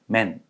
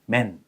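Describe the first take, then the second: No difference in how they are said.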